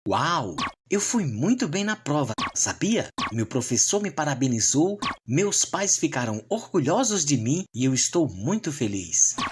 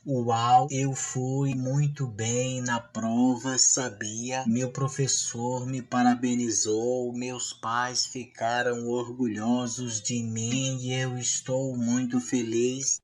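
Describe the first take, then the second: First: It is read with lively rhythm and intonation. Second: It is read flatly, without expression.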